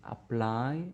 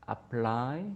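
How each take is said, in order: The two takes are said the same way.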